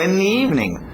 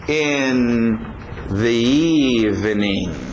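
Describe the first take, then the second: First: The word 'the' merges into a 'ni' sound. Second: The word 'the' is pronounced fully.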